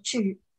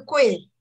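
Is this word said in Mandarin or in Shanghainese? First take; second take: Shanghainese; Mandarin. First: The word is said with the Shanghainese reading. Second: The word is said with the Mandarin reading. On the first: "上海话读“举”" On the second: "字是贵"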